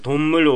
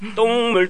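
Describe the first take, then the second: First: The first consonant is plain and relaxed. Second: The first consonant is tense with a tight throat. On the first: It means animal. The speaker calls it right. "動物というトンムル" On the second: It means dung water. The speaker calls it wrong. "トンムルと言ってしまってお笑いされた"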